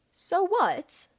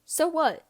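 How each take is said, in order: First: Higher, mocking echo. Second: Said in the usual way. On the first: Regulus echoes James, almost mocking. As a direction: throw the words back with scorn. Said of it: "he repeats almost mockingly".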